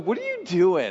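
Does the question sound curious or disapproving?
curious. It sounds curious and interested. The asker trusts that what is being done is good. The speaker calls it right. "We should say, ... Because everything he does is good"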